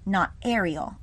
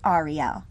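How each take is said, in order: First: The name is said with the common English pronunciation. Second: The name is said with its Hebrew pronunciation. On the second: "I will be continuing to say Ariel"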